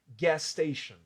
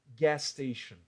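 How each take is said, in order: The two takes are said the same way.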